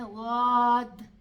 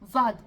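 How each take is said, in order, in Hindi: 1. व्यंजन को जीभ के लंबे संपर्क के साथ खींचा जाता है। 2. व्यंजन एक तेज़ जीभ की थपकी से छोटा कर दिया जाता है। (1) "क्योंकि उसमें इस्तितालत है, उसमें लंबाई है" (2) "कुछ लोग कैसे करते हैं, जाद जाद ऐसे करते हैं, जबान को फौरन यूं यूं लगाते हैं ... ये गलत है"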